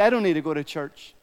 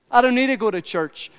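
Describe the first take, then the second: First: Said in the usual way. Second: "I don't need to go to church" pitched higher in a mock voice; higher, mocking take on "I don't need to go to church"; mock voice of a skeptic. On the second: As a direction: mimic the churchgoer who can't be bothered. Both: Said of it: "Many people say".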